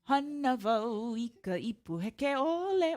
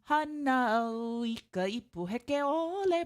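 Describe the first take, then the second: First: A v sound is heard before the o. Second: No consonant is heard before the o sound. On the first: "you can also say it with the v" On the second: "you could say it"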